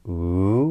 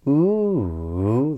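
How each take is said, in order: First: The pitch rises through the sound. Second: The pitch rises, falls, then rises again. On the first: It marks a question or a list. "So a rising intonation pattern would be" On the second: The speaker has not finished yet. "this circumflex inflection, this ooh, this rise, fall, rise"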